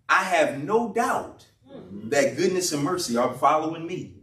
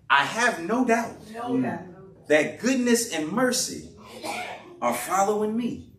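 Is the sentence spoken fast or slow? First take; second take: fast; slow. First: The sentence is spoken quickly. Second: The sentence is spoken slowly. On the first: The speaker calls it wrong. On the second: The speaker calls it right.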